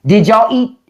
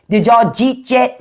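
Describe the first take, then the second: First: Said in the usual way. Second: "jeet" said as one clipped word for "did you eat"; Pittsburgh slurred "jeet yet" in one breath. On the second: Shown as a demonstration. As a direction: run "did y'all eat" together into "jeet". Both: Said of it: "all y'all Y's become J".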